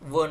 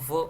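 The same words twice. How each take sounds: First: The sound is made with the lips only. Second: The upper teeth touch the lower lip. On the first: The speaker calls it wrong. "व न करता" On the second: The speaker calls it right. "दाताने ओठ, तेव्हा व असं होतं"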